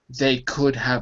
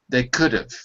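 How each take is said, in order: First: The word have is pronounced fully and clearly. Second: The word have is reduced to a weak sound. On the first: The speaker calls it wrong. "I don't say they could have avoided" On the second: The speaker calls it right. "I say they could have"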